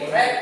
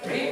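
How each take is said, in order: First: The vowel is short, rhyming with 'bed'. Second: The vowel is long, rhyming with 'need'. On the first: It is the past form of the verb. "bentuk kedua dibacanya red" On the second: It is the present form of the verb. "Dalam kata kerja bentuk satu dibacanya read"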